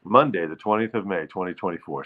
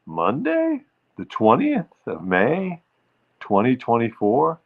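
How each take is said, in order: First: Fast, fading, no conviction; rushed throwaway. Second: Sing-song date. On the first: Host mumbling the date through fast and fading. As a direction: rattle it off like you don't care. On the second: Host announcing the date with a sing-song lift. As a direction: announce it with a flourish. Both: Shown as a demonstration. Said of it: "Say it like you mean it".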